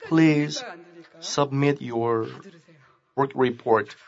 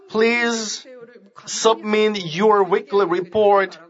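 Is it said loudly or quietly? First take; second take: quietly; loudly. First: It is said in a quiet voice. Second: It is said in a loud voice.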